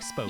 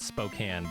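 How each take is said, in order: First: The last syllable sounds like 'cane'. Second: The last syllable sounds like 'can'. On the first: "it ends in E, so it looks like" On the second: "there's a city in Washington called"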